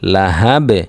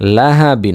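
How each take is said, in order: First: The word ends in a bounced 'b' stop. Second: The word ends with a nasal 'in' sound. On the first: The reading stops on this word. "অক্ফ করলে" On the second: The reading continues without stopping. "বা দুই জের বিন"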